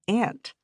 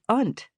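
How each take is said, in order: First: The vowel is the 'a' of 'cat'. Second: The vowel is a broad 'ah' sound. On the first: "instead of "ant," like most of the other students" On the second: "We both said it like "unt""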